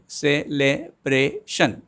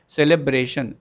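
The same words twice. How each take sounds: First: "celebration" slowly in four beats, ce-le-bra-tion; "celebration" drawn out syllable by syllable; syllables spelled out slowly. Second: Said in the usual way. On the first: Shown as a demonstration. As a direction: beat out "celebration" for the class. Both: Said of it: "some more examples for four syllables".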